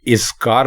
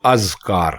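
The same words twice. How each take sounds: First: اذکار as "iz-kaar", i first; the mistaken اذکار with zer under alif; wrong pronunciation. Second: اذکار as "az-kaar", open a; اذکار with zabar on alif; correct pronunciation. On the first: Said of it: "اذکار بالکل غلط ہے". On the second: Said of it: "اس کا درست تلفظ ہے". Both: Shown as a demonstration.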